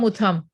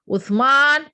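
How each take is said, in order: First: The name ends with 'am', without an 'n' sound. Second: The name ends with a clear 'man' sound. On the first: The speaker calls it wrong. "It cannot become Utham" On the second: The speaker calls it right. "you have to pronounce it nicely"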